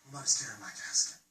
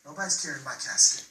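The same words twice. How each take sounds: First: Much softer, low and hushed; hushed repeat. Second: Said in the usual way. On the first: Acted. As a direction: drop it almost to a whisper. Repeated line dropped to near whisper.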